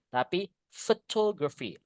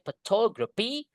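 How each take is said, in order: First: The word begins with an F sound. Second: The word begins with a P sound. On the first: The speaker calls it right. "P and H. Dalam bahasa Inggris dibaca F" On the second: The speaker calls it wrong. "Gak boleh"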